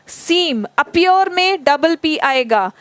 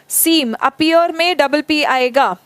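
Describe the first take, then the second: No difference in how they are said.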